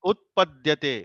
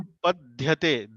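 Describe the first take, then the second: First: The middle d is said as a plain d. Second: The middle d is said with a breathy dh. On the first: The speaker calls it right. "not dhya. It is dya" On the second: The speaker calls it wrong. "you recite Utpadhyate. Dhya. Dha for dha for dhaga"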